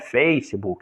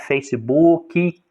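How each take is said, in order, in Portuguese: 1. É pronunciado do jeito inglês. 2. É pronunciado do jeito brasileiro. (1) "o correto seria Facebook" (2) "a gente fala é Facebook"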